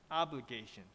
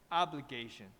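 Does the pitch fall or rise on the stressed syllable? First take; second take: fall; fall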